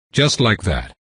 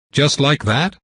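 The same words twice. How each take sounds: First: "Just like that." said level and falling, stress on "just"; flat confirmation. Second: Rising, disbelieving "Just like that?" pitched high; incredulous question. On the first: Vampire coolly confirming to the man, flat falling answer. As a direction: close it down, matter-of-fact. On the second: Security head asking the vampire in disbelief, higher and rising. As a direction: push "like" up in shocked disbelief. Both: Acted.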